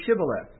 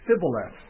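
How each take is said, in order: First: "Shibboleth" begun with a clear sh sound; correct sh pronunciation. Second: "Sibboleth" begun with a plain s, no sh; s instead of sh. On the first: Guard testing a fleeing Ephraimite, "Shibboleth" with a crisp sh. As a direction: pronounce "Shibboleth" with an initial sh. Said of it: "unable to pronounce the S H". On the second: Ephraimite failing the guard's test, "Sibboleth" with s for sh. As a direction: say "Sibboleth" with s replacing the sh. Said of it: "he could not pronounce it right". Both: Shown as a demonstration.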